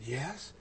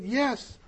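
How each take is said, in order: First: Very soft, retold small yes; hushed acted answer; dazed reply. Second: High-pitched little yes; comic high retold answer; retold dazed reply. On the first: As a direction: answer faintly, as if far away in thought. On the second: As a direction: answer in a raised, acted voice. Repeated answer, played for laughs.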